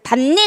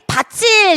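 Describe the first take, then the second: First: A d sound is followed by an added n. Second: The final t turns into a ch sound. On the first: "그래서 밭일 이렇게 되는데" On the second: "만약에 밭일에 이 일이 형식 형태소라면 어떻게 가져야지? 밭일 이렇게 발음이 돼야 되거든요"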